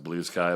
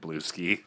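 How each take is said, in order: First: The second word rhymes with 'high'. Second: The second word rhymes with 'free'. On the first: The speaker calls it right. "I know it's pronounced blue sky" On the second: The speaker calls it wrong. "I can't help but want to pronounce it blue ski"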